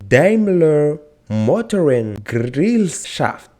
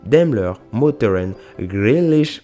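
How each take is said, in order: First: The name is said slowly and carefully. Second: The name is rushed and garbled. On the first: "on va prendre le temps de le prononcer" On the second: "Ok, ok, stop"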